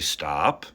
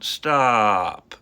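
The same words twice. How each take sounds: First: The pitch does not fall on the word. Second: The pitch falls on the word. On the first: The speaker calls it wrong. "You wouldn't say stop, right? That just sounds off" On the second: The speaker calls it right. "your voice is falling"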